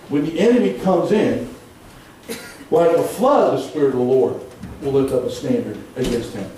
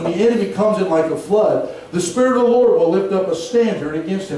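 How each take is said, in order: First: The pause comes after the words comes in. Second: The pause comes after the word flood.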